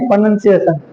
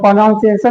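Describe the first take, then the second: First: The second syllable sounds like 'nun'. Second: The second syllable sounds like 'nown'. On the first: The speaker calls it right. "प्रोनाउंसिएशन बोला जाता है" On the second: The speaker calls it wrong. "प्रोनाउंसिएशन नहीं"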